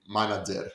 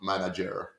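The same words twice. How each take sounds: First: The word is said with a Greek accent. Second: The word is said with an English accent. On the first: It sounds natural. The speaker calls it right. "we say manager" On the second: It sounds pretentious. The speaker calls it wrong. "not manager"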